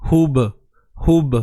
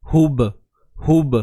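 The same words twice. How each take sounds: Both takes have the same delivery.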